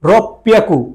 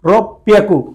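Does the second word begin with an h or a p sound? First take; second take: p sound; p sound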